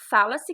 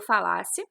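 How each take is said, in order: First: The stress is on the first syllable. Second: The stress is on the second syllable. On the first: It refers to the present tense. "a sílaba tônica é o fá" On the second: It refers to the past tense. "a sílaba tônica é o lá"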